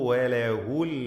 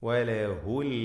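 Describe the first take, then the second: The two takes are said the same way.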